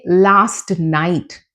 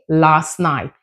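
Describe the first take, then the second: First: The T at the end of last is pronounced. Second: The T at the end of last is dropped. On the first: The speaker calls it wrong. "We don't say" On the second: The speaker calls it right. "We say"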